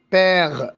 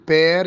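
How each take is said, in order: First: بير as "pègh", ending in the throat; throaty r. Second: بير ending in a tongue-tip r; rolled r. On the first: Retold or imitated. Teacher imitating the king's r, بير with throaty ending. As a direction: turn the r of بير into غ. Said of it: "يقول إيه؟". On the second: Shown as a demonstration. Teacher giving the word for father, بير with rolled r. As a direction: say بير with a clear Arabic ر. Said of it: "بدل ما يقول بير".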